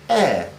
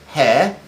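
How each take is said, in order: First: The word starts with no h sound. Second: The word starts with an audible h sound. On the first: The speaker calls it right. "say heir" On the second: The speaker calls it wrong. "Don't say hair"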